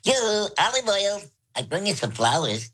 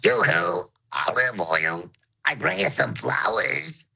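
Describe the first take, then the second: First: It is said in a high voice. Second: High and low voices sound at once.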